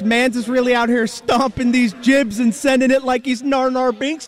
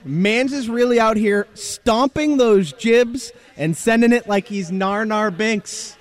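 First: It is said fast, in an accent. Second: It is said slowly, without an accent.

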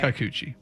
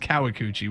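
First: The name is said with three syllables. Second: The name is said with four syllables. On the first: The speaker calls it right. "Should say right" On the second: The speaker calls it wrong. "which is incorrect"

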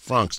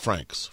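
First: The word is said in a French-like way. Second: The word is said in an English way. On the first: This is how the Swiss say it. The speaker calls it right. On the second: This is not how the Swiss say it. The speaker calls it wrong.

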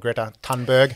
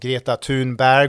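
First: The name is pronounced the English way. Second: The name is pronounced the Swedish way. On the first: "as it's beautifully translated into Anglo" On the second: "And you also said Greta's name correctly"

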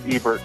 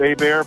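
First: The name is said with an English pronunciation. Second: The name is said with a French pronunciation. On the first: This is the usual way to say it. "naturally speaking, it's Ebert" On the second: This is how French speakers say it. "to my French friends, we can call it Abair"

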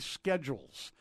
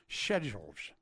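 First: It is said with an American pronunciation. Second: It is said with a British pronunciation.

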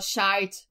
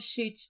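First: It has a diphthong vowel, Irish style. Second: It has a short vowel, non-Irish style.

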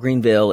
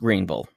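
First: The name is pronounced crisply, every sound clear. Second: The name is slurred, sounds swallowed together. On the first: This is how outsiders say the name. The speaker calls it wrong. "it's not Greenville" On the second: This is how locals say the name. The speaker calls it right. "it's Greenville, as we say ... it's like marbles in your mouth"

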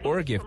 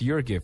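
First: The name begins with an 'or' sound. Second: The name begins with a 'your' sound. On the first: The speaker calls it wrong. "no es Or Gift" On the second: The speaker calls it right. "la U se pronuncia como You"

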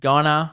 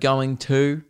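First: The words are reduced and run together. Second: The words are said fully and separately. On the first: "gonna instead of going to" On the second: "instead of going to"

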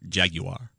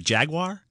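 First: It is said with a British pronunciation. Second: It is said with an American pronunciation.

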